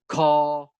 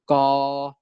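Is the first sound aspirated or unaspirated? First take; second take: aspirated; unaspirated. First: The first consonant has a puff of air. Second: The first consonant has no puff of air. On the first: "aspirated stops are stops produced with a puff of air" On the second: "we also have unaspirated stops"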